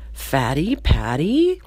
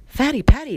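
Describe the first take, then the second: First: Slow, questioning drawn-out delivery; slowly puzzling out who it is; dawning recognition. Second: High, loud disbelief; higher, louder, quick exclamation; astonished recognition. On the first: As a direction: stretch it out as a tentative question. Steve first recognises his old classmate. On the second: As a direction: blurt it out in amazement. Steve repeats it, now astonished. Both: Acted.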